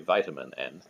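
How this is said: It is said in an American accent.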